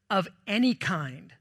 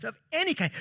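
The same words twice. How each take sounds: First: Said in the usual way. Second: "any" lifted high and punched, then falls; emphatic high "any"; any stressed, pitched high. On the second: Shown as a demonstration. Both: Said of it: "Those are three different versions".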